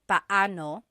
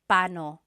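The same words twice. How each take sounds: First: The two middle vowels are pronounced separately. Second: The two middle vowels run together quickly. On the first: "you say them separately" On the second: "when speaking quickly, Filipinos just say paano"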